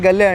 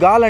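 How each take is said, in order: First: The name is said as two syllables. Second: The name is said as one long syllable. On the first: This is how visitors say it from the spelling. "మనమైతే గల్లే అంటాం pronunciation ప్రకారం" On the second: This is how the local people say it. "వీళ్ళు గాల్ అంటారంట"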